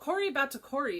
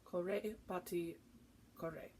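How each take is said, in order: First: The name is said in an anglicized way. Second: The name is said in the Italian way. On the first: The speaker calls it wrong. "is how I've been saying it" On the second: The speaker calls it right. "is how you say it"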